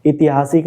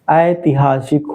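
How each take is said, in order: First: ऐतिहासिक said wrongly as itihasik, short i at the start; wrong spelling said. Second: ऐतिहासिक said aitihasik, open ai at the start; correct form. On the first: Teacher to pupils, the wrong form: ऐतिहासिक said as itihasik. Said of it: "ऐतिहासिक शुद्ध वर्तनी में गलत होता है". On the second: Teacher to pupils, the correct form: ऐतिहासिक said as aitihasik. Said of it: "ऐतिहासिक नहीं होता है". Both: Shown as a demonstration.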